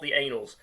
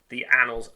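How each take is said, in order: First: The first vowel sounds like the one in 'say'. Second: The first vowel sounds like the one in 'cat'. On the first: The speaker calls it wrong. "not the anals" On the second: The speaker calls it right. "it is definitely pronounced the annals"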